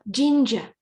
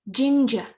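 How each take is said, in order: No difference in how they are said.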